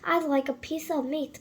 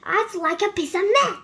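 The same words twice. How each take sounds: First: It is said quietly and softly. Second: It is said loudly, booming.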